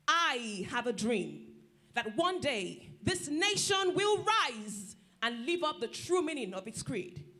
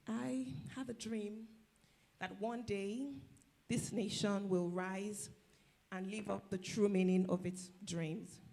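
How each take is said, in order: First: It sounds confident and commanding. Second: It sounds hesitant and unconvincing.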